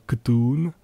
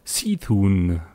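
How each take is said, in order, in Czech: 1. Jméno začíná zvukem 'k'. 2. Jméno začíná zvukem 'see'. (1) "ale je to Ktun" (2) "tak se to nevyslovuje"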